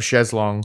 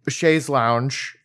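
First: The second word sounds like 'long', without the 'ow'. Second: The second word rhymes with 'sponge', like 'lounge'. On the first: This is the British form, closer to French. "in British English, they still say chaise longue" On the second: This is the American form of the term. "the Americanized version"

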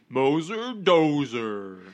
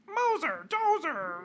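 First: It is said at a normal pitch. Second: It is said at a higher pitch.

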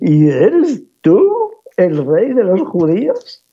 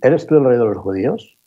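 First: It is said with deep scorn and disdain. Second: It is said as a neutral formal question. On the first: The speaker despises the person addressed. "Tercer tono, profundamente despectivo" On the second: The speaker is asking in an official capacity. "Segundo tono, oficial"

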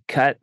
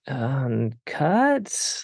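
First: It is said firmly and decisively. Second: It is said hesitantly, like a question.

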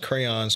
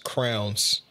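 First: It is said with the full vowel, like crayons. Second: It is said with a reduced vowel, like crowns. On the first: The speaker calls it right. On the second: The speaker calls it wrong.

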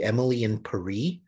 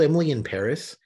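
First: Paris rhymes with Emily. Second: Paris does not rhyme with Emily. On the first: The speaker calls it right. "supposed to be Emily in Paris because it rhymes" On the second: The speaker calls it wrong. "I've heard it called"

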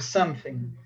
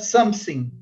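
First: The th is said as a th sound. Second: The th is replaced by an s sound. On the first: The speaker calls it right. "ao invés de" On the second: The speaker calls it wrong. "o alemão, quando tem que pronunciar, por exemplo, thing, ele pronuncia sim"

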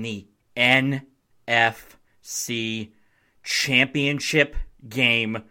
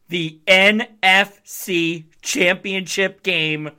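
First: It is said plainly, without extra feeling. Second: It is said with strong, excited feeling.

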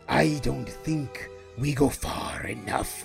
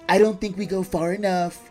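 First: It is said in a menacing supervillain voice. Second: It is said as a politician impression. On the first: "I'm going to read it like Red Skull" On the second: "and then I'm going to read it like Donald Trump"

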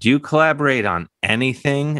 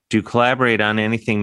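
First: The stress falls on the word anything. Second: The stress falls on the word collaborate. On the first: The asker wonders if the person can be talked into anything. "As if, can you be just right. talked into anything?" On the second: The asker wants to know which part is shared work. "meaning which aspect of Bubble are you collaborating on?"

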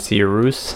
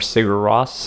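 First: The name is said with Icelandic-style sounds. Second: The name is said with English-style sounds.

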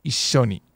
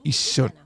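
First: A held double s sound replaces the tsu. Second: A held double s sound replaces the tsu.

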